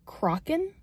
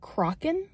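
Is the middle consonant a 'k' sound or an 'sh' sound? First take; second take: k; k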